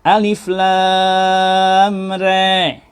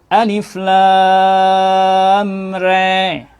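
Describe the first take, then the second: The two takes are said the same way.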